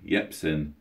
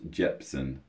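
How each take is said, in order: First: The name begins with a Y sound. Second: The name begins with a J sound. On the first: The speaker calls it right. "you got the pronunciation right the second time" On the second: The speaker calls it wrong. "not Jepson"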